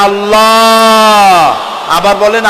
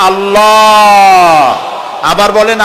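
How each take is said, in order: Both takes have the same delivery.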